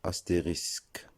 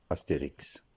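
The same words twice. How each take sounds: First: Astérisque ending in S then K; correct pronunciation. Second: Astérix ending in K then S; wrong pronunciation. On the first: Teacher showing the symbol's name, astérisque ending -isk. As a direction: say astérisque with a clear final -isk. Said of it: "On doit le prononcer". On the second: Teacher showing the common mistake, Astérix ending -iks. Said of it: "et non Astérix". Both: Shown as a demonstration.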